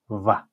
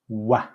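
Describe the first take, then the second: First: It begins with a V sound, teeth on lip. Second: It begins with a W sound, lips rounded. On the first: The speaker calls it wrong. "Not va" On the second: The speaker calls it right. "You put your lips together, make a little circle"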